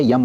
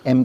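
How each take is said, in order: First: "यम" with a y-glide at the start; mispronounced letter M. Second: Said in the usual way. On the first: Retold or imitated. Teacher imitating how some English speakers name M, mispronounced as "यम". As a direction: say "यम" as "yum" for the letter M. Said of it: "pronunciation उनका बहुत अजीब होता है". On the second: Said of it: "ABCD तो बराबर पढ़ेंगे".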